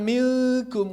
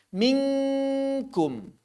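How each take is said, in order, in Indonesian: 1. Bunyi nasal sangat samar dan tersembunyi. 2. Bunyi nasal ditekan tegas seperti 'ng'. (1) "Jangan minkum, karena kalau minkum jadi sangat samar" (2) "langsung saja tempelkan seperti saat mengucapkan eng"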